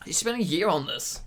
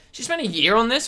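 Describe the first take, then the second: First: Dropped low and quiet in disbelief; softer, incredulous echo; quiet repeat. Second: Said in the usual way. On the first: Real, not acted. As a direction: mutter it again, deflated.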